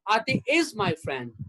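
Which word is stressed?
is. The word is carries the stress. The friendship continues in the present. "That means she is still my friend"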